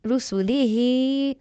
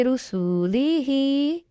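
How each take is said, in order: First: रसूली ही with only the long ही drawn out; correct reading. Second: रसूली ही with every vowel dragged out; wrong reading. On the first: Teacher showing students the right Quran reading. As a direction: say रसूली quickly, stretch the final ही. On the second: Teacher showing students how not to recite. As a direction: overstretch each syllable of रसूली. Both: Shown as a demonstration. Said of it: "ऐसे नहीं पढ़ेंगे".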